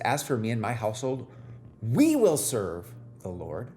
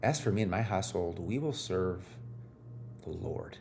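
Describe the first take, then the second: First: The stress falls on the word we. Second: The stress falls on the word Lord.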